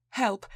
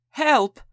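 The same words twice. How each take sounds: First: A mild, restrained first call for help; first cry for help. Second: High, much louder scream of Help!; screamed in Italian accent. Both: Acted. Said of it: "the woman screamed in a thick Italian accent".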